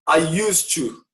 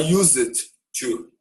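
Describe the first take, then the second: First: The d sound of used is silent. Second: The d sound of used is clearly pronounced. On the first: The speaker calls it right. "A letra D nem sai" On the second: The speaker calls it wrong. "Não pode falar I used to"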